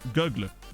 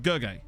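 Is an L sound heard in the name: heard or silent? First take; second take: heard; silent. First: The L sound is pronounced in the name. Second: The L sound is left silent in the name.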